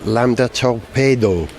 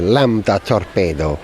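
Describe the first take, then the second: First: It is said in a plain English accent. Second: It is said in an Italian accent.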